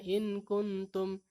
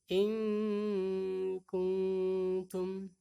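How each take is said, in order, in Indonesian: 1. Bunyi n-nya biasa dan pendek, tanpa dengung sengau. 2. Bunyi n-nya tersembunyi dengan dengung sengau yang dipanjangkan. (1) "kita tidak membacanya in kuntum" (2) "tapi in kuntum"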